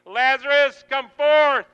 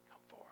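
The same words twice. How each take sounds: First: High, loud shouted summons; commanding call. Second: Barely audible whisper; whispered call. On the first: Jesus calling Lazarus by name into the cave, commanding shout. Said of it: "you hear your own name". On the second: Jesus outside your cave calling you, whisper. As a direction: breathe the command in a near-silent whisper. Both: Acted.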